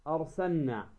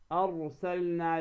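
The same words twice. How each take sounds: First: أرسلنا with the L lost into a doubled N; lam dropped. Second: أرسلنا with the L sounded before the N; distinct L in أرسلنا; clear lam. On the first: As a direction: say أرسلنا as arsanna. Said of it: "أين اللام؟ ذهبت". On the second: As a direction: say أرسلنا as arsal-na. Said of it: "أن تظهر اللام". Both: Shown as a demonstration.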